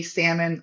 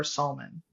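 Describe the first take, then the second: First: "salmon" as "SAM-un", silent L; short-A pronunciation. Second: "salmon" as "SAHL-mun"; L pronounced. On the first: Farmer offering first option, "salmon" as "SAM-un". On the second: Farmer offering the joke option, "salmon" with its L sounded. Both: Shown as a demonstration. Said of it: "do you say salmon or salmon".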